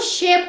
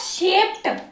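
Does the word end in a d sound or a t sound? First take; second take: d sound; t sound. First: The word ends in a d sound. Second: The word ends in a t sound. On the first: The speaker calls it wrong. "वो शेप्ड नहीं होता है" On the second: The speaker calls it right. "ट क्या sound दो"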